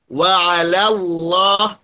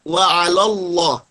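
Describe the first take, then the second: First: Wa 'alallah slowly with an open la before the heavy Allah; thin lam. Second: Wa 'alallah wrongly said as wa 'alolloh; thick lam. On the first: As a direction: keep 'ala light in wa 'alallah. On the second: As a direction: round the la of wa 'alallah into lo. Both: Shown as a demonstration. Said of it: "jangan dibaca".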